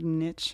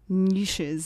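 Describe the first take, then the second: First: The word is said with an American pronunciation. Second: The word is said with a British pronunciation. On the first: "instead of niche" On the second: "as the British would say"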